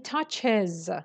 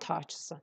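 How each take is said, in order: First: The word ends with an extra 'iz' syllable. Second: The word ends without an extra 'iz' syllable. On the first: The speaker calls it right. "you pronounce this one with "ez."" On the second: The speaker calls it wrong. "not touches"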